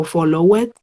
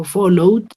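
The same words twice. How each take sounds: First: FOLLOWED read as 'follow-wed', with the e sounded; learner's 'followed' with a spelt-out -ed; wrong extra syllable. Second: FOLLOWED in two syllables, 'follow' plus a bare d; teacher's firm 'followed', closing straight on d; final D sound. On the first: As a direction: say 'followed' wrongly in three syllables, rising on 'wed'. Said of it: "yo no digo followed". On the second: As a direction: say 'followed' with no e in the ending. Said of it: "yo digo followed". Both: Shown as a demonstration.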